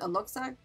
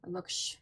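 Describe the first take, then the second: First: The x is said as a 'ks' sound. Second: The x is said as a 'sh' sound.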